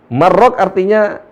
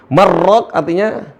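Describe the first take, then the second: Both takes have the same delivery.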